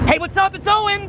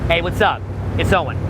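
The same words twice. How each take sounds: First: The greeting is delivered with far too much energy. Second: The greeting is delivered with moderate, natural energy. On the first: The speaker calls it wrong. "Too much. Too much energy" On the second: The speaker calls it right. "right? Notice the difference"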